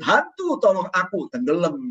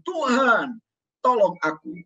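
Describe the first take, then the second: First: Preacher mocking a wrong plea to Hantu for help; mock wrong cry to the ghost. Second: Said in the usual way. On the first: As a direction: comically call out to the ghost by mistake. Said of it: "Nah, nggak kebalik". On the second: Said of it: "Untung dia berseru".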